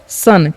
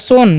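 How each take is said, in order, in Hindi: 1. स्वर एक छोटी 'uh' ध्वनि है। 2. स्वर एक लंबी 'oh' ध्वनि है। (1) "इसको पढ़ना है आपको सन, क्योंकि ओ का उच्चारण यहाँ पर अ होता है" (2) "सोन नहीं"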